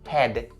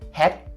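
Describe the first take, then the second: First: The word ends with a voiced D sound. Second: The word ends with a voiceless T sound. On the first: The speaker calls it right. "it has to be ended with that D sound" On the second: The speaker calls it wrong. "you shouldn't turn it into the T sound"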